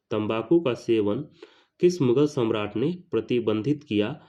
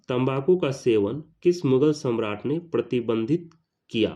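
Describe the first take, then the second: No difference in how they are said.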